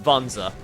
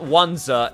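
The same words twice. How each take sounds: First: The word begins with a V sound. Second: The word begins with a W sound. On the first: The speaker calls it right. "If it's a W, it's a V sound" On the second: The speaker calls it wrong. "It's not"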